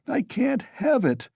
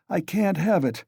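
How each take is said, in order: First: Repeated far higher and more strained; second take climbs high in irritation; irritable, higher. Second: Curt, irritated refusal; first take, mildly irritated and higher; irritable. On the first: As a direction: push the repeat up, exasperated. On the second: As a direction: snap it back once, a touch irritable. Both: A narrator's reading. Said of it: "he repeated irritably".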